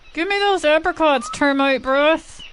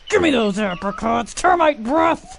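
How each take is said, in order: First: It is said in a plain voice. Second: It is said with a dominant growl.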